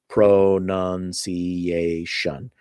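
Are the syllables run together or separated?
separated. The syllables are separated with small breaks. "they pronounce things by the syllables"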